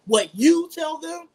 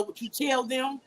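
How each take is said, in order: First: "you" stretched high and loud; slow, emphatic "YOU", pitched well up; stress on YOU. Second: Said in the usual way. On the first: Real, not acted. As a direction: punch "you", slowing the whole phrase. Repeats phrase to stress "you.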